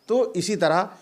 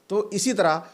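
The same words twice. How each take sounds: No difference in how they are said.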